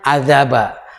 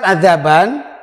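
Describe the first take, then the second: First: The word ends with a long a vowel. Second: The word ends with a short vowel and n. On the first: The reader stops on the word. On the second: The word is read without stopping on it.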